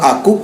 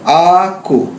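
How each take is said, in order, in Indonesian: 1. Vokal pertama diucapkan pendek. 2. Vokal pertama diucapkan panjang. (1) "satu harokat semua itu" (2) "berarti A-nya dua harokat"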